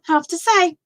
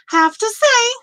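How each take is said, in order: First: Said in the usual way. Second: Playful echo. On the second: Real, not acted. Repeats phrase for emphasis.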